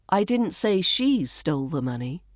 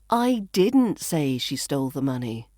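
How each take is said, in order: First: The word she carries the main stress. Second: The word didn't carries the main stress. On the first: Someone else stole it. "Maybe someone else stole it" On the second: The speaker never said it. "which implies I never said that"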